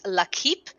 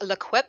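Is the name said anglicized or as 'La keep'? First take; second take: La keep; anglicized. First: The name is said as 'La' then 'keep'. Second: The name is said in an anglicized New Zealand way. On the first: The speaker calls it right. "La and then keep" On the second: The speaker calls it wrong. "we have been saying it wrong, by New Zealand accent"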